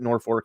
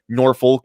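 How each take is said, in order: First: Norfolk is pronounced the local Nebraska way. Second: Norfolk is pronounced the Virginia way. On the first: It names the city in Nebraska. "but we pronounce it Norfolk here" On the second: It names the city in Virginia. "not Norfolk, Virginia"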